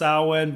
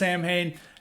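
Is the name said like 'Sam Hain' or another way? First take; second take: another way; Sam Hain. First: The name is not said like 'Sam Hain'. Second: The name is said like 'Sam Hain'. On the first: This is the standard pronunciation of the word. "supposed to be pronounced Samhain" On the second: This is how the band's founder said the name. "we're gonna pronounce it as Sam Hain"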